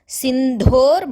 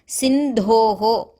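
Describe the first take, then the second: First: The word ends with an 'or' sound. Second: The word ends with an added 'oho' sound. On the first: The word is joined to the next word. "when we are saying it together in the shloka, we will go as Sindhor Madhye" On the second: The word stands alone, split from the next word. "when we are splitting it, we say it as Sindhoho"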